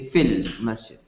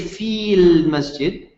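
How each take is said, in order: First: The first vowel is cut short. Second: The first vowel is held long. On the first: The speaker calls it right. "say fil masjid" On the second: The speaker calls it wrong. "you don't say fil masjid"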